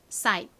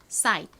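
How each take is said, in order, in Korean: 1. 빠르게 말하면 t는 거의 안 들려요. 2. 빠르게 말하면 t는 거의 안 들려요.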